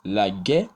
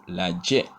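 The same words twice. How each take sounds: First: "La gué" with a hard G. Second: "la djé" with a dj sound. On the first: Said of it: "qui ont la même prononciation en g". (« La gué » avec un G dur) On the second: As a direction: say "djé" in "la djé" with J as in "job". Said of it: "Autre dichotomie". (« la djé » avec le son dj) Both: Shown as a demonstration.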